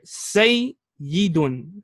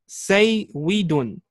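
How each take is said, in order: First: The middle consonant is a single y sound. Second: The middle consonant is a w sound. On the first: This is the form after the letter swap. "we're gonna change the wow into a ya" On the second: This is the original underlying form. "Here we have the word saywidun"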